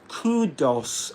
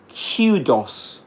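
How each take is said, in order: First: The k is followed directly by an oo sound. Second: A y sound follows the k, like queue. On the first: "in American English, we've got a different pronunciation" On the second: "That's in British English"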